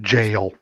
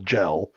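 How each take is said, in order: First: The word is said with a Southern drawl. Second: The word is said in a plain accent. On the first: "I love your southern accent" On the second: "I knew you meant G E L"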